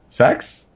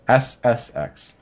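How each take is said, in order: First: It is said as the single word "sex". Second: It is spelled out as three separate letters. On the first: The speaker calls it wrong. "not SSX" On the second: The speaker calls it right. "I'm making sure to say SSX"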